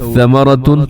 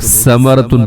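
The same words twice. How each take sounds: First: The first consonant is soft with no whistle. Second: The first consonant is a whistling hiss. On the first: The speaker calls it right. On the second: The speaker calls it wrong.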